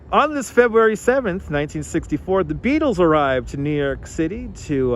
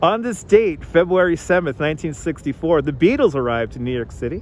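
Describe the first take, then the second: First: It is said in a radio announcer voice. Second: It is said in a casual, ordinary voice.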